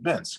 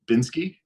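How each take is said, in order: First: The name ends on the 'k' sound. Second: The name ends with an 'ee' vowel. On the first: The speaker calls it right. "It's actually a silent E. It's actually Binsk" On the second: The speaker calls it wrong. "You know how often I get told Binsky?"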